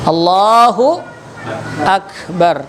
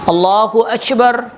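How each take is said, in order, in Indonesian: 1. K di Akbar adalah k keras. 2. K di Akbar terdengar seperti ch. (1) "alif qaf alif kaf ba ra, akbar" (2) "kaf disebutnya c"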